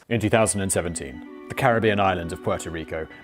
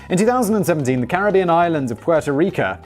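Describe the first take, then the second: First: The reading sounds subdued and somber. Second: The reading sounds upbeat and cheerful. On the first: "Now it just feels like I'm being sarcastic" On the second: "Why am I saying it like this?"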